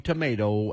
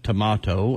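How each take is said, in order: First: It is said in a Southern US pronunciation. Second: It is said in an English-area pronunciation.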